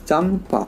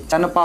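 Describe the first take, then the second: First: The nasal before p sounds like m. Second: The nasal before p sounds like n. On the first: The speaker calls it right. "ए एम देंगे क्योंकि म उच्चारण हो रहा है" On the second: The speaker calls it wrong. "अंस्वर का ए एन नहीं देंगे, चनपा हो जाएगा"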